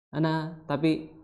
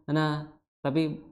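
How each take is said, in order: No difference in how they are said.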